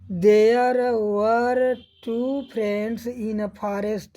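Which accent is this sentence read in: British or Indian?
Indian. It is read in an Indian English accent. "Hindi accent में पढ़ रहे हैं"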